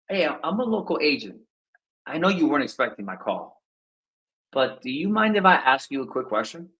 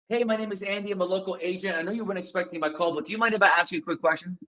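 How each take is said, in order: First: It sounds relaxed and laid back. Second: It sounds eager and pushing forward.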